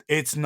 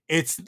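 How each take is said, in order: The two takes are said the same way.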